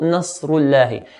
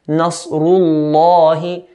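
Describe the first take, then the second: First: The L sound is light and thin. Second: The L sound is heavy and deep. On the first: The speaker calls it wrong. "and not" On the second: The speaker calls it right. "we're going to make the lam in the word Allah heavy"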